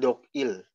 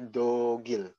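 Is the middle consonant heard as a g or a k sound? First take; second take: k; g. First: The middle consonant ends the first syllable as k. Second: The middle consonant starts the second syllable as g. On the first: The speaker calls it wrong. "Bukan Dogil" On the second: The speaker calls it right. "tapi Dogil"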